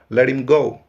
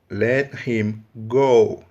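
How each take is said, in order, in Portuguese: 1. O H é mudo; o T soa como R. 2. Tanto o T quanto o H são claramente pronunciados.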